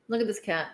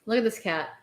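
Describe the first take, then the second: No difference in how they are said.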